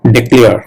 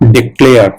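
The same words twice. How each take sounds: The two takes are said the same way.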